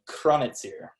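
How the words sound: The name has an Austrian German pronunciation. "how you would pronounce it there"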